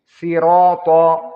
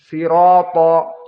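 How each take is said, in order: The two takes are said the same way.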